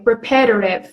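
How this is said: It uses an American pronunciation. "you will hear Americans uh, this way"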